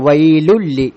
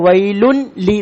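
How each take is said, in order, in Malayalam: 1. n ഇരട്ടിച്ച l ശബ്ദമായി ലയിക്കുന്നു. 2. n ഉച്ചാരണം l-ന് മുമ്പ് വേറിട്ട് ഉച്ചരിക്കുന്നു. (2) "അല്ലാണ്ട് വൈലുൻ ലി എന്നല്ല"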